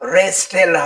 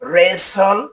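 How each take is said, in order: First: The t sound is pronounced in the middle. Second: The t sound is silent in the middle. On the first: The speaker calls it wrong. "হবে না" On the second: The speaker calls it right. "এর উচ্চারণ হবে"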